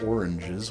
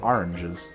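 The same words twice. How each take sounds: First: It is said in a standard American accent. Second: It is said in a New Jersey accent. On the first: "we don't have oranges" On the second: "Like over here in New Jersey, we have oranges"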